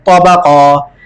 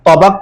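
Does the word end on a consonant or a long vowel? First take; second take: long vowel; consonant. First: The word ends with a lengthened a vowel. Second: The word ends abruptly on the final consonant. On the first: The speaker calls it right. "एक अलिफ की मिकदार खींच के पढ़ेंगे" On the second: The speaker calls it wrong. "अमूमन बच्चे इसमें भी गलती करते हैं"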